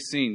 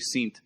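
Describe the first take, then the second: First: The word ends plainly with an n sound. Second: The word ends with an added t sound. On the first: The speaker calls it wrong. "you don't say seen" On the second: The speaker calls it right. "You say seent"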